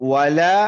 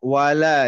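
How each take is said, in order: The two takes are said the same way.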